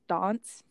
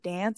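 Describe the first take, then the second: First: The vowel is a broad ah sound. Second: The vowel is a flat American A.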